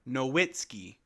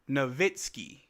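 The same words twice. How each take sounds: First: The name is read out letter by letter. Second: The name is said in its usual pronunciation. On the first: "when I look at it as a kid, I'm like" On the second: "you pronounce it"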